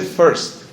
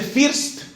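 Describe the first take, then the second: First: "first" with an e-like vowel, "ferst"; corrected pronunciation. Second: "first" with a Spanish-style i, like "feerst"; wrong pronunciation. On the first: Language teacher correcting a learner, corrected pronunciation. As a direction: say "first" as "ferst", not "feerst". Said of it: "se dice". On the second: Teacher quoting the learner's mistake, wrong pronunciation. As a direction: say "first" with a clear ee vowel. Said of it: "no se dice así". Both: Shown as a demonstration.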